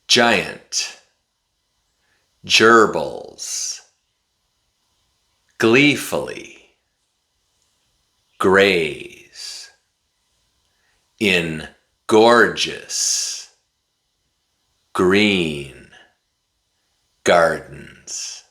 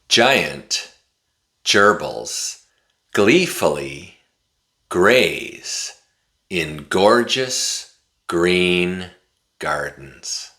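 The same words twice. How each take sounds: First: It is said slowly, word by word. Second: It is said at a moderately faster pace. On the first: "Repeat after me" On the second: "this time I'm going to say it a little bit faster"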